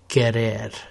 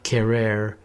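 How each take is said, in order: First: The R is a quick flipped tap. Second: The R is not tapped, English-style. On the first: The speaker calls it right. "the R in Spanish is either flipped or rolled" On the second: The speaker calls it wrong. "it's not querer"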